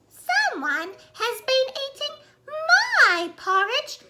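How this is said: It is said in a little baby voice.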